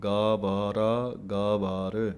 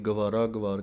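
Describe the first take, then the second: First: The first vowel of each word is long. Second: The first vowel of each word is dropped short. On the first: The speaker calls it right. "ਗੱਗੇ ਦੇ ਕੰਨੇ ਨੂੰ ਵੀ ਬੋਲਣਾ ਹੈ" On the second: The speaker calls it wrong. "ਗੱਗੇ ਦੇ ਕੰਨੇ ਨੂੰ ਛੱਡ ਹੀ ਜਾਂਦੇ ਹਨ"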